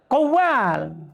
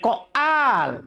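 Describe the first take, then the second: First: The middle consonant is a w sound. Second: The middle consonant is a glottal stop. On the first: The speaker calls it right. "Kan kembali ke asal tuh" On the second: The speaker calls it wrong. "Jangan bilang koal"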